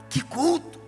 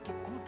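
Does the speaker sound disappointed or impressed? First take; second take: impressed; disappointed. First: The voice sounds delighted and impressed. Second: The voice sounds let down and unimpressed. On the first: The service was wonderful. "Meu Deus" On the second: The service was bad. "falam a mesma coisa, só que é o contrário"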